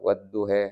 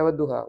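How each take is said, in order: First: The final vowel is tilted toward 'eh'. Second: The final vowel is an open 'ah' sound. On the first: "Itu dibaca imalah" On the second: "bukan membaca wadduha"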